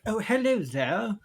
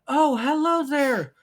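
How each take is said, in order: First: It is said in a British accent. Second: It is said in a higher pitch, not British.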